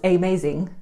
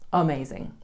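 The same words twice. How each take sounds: First: The first vowel is a full, clear vowel. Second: The first vowel is a weak schwa sound. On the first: The speaker calls it wrong. "we don't say amazing" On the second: The speaker calls it right. "we have the schwa-i sound at the beginning"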